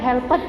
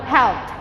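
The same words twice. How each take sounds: First: The ending is pronounced as a full 'ed' syllable. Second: The ending is a short t sound. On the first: The speaker calls it wrong. "bukan helped guys ya" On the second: The speaker calls it right. "ed-nya diganti t, helped, ada t-nya ya"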